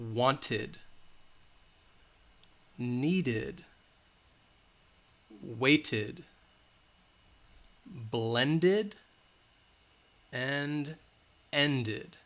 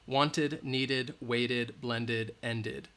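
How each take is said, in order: First: The words are said at a slower pace. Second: The words are said at a faster pace.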